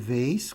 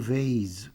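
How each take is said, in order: First: The word ends with an S sound. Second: The word ends with a Z sound. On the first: "vase com S" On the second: "vase com Z"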